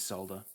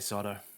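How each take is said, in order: First: It is said the non-American way. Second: It is said the American way. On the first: "everywhere else in the world is is solder" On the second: "It's only Americans that say solder"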